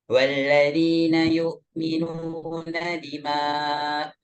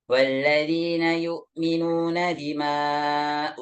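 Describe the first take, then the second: No difference in how they are said.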